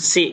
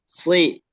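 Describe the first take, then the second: First: The s sound is thin and light. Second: The s sound is thick and heavy. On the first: The speaker calls it wrong. "Kalau sin kan si gitu aja" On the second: The speaker calls it right. "Tapi kalau sod dia lebih tebal"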